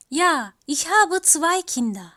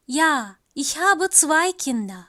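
Both takes have the same delivery.

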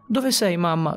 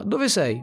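First: Shouting for mom. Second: Shouting again. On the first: Boy in the hospital shouting for his mother, desperate. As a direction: call out for her with all your voice. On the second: Boy shouting across the hospital floor, desperate. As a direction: call out once more, even higher. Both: Acted. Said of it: "urlai più volte".

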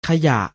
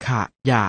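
First: Said in the usual way. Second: ขะ, short pause, ยะ; syllable by syllable. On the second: Shown as a demonstration. Teacher showing pupils the reading, ขะ-ยะ in separated syllables. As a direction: split ขะยะ into two separate syllables. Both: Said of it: "อ่านว่า".

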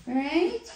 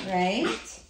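First: Pet talk. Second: Said in the usual way. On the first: Real, not acted. Repeats question to dog, higher.

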